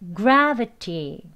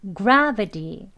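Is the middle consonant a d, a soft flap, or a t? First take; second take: t; d. First: The middle consonant is a clear t sound. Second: The middle consonant is a d sound. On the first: "1단계" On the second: "다음은 D로 발음합니다"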